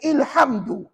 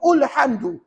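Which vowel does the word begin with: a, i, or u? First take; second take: i; u. First: The word begins with an i vowel. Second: The word begins with a u vowel. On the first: "maka salah dalam kaedah bacaan" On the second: "maka salah dalam kaedah bacaan"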